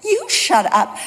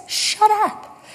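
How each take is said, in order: First: Mock comeback with "You" stressed first; retold retort, stress on YOU. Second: Higher-pitched mock retort; retold snapping retort. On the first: Walker throwing it back at the cyclist, "You" stressed. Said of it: "And so I said". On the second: Cyclist to walker in a quarrel, mock retort. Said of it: "And he says".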